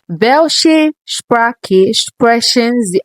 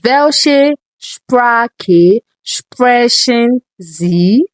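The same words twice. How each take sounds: First: It is said at a normal speed. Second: It is said very slowly.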